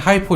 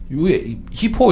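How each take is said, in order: First: The first vowel sounds like 'eye'. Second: The first vowel sounds like 'ee'. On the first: "강세에 따라서 발음이 하이포 이렇게 될 수도 있어요" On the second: "히포 이렇게 하면 좋겠는데요"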